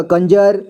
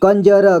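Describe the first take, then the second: First: Said in the usual way. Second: कंजर as कं-ज-र, final vowel voiced; spelled-out reading. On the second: Shown as a demonstration. Teacher showing learners how to read, sounded out as कं-ज-र. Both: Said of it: "इसे क्या पढ़ेंगे?".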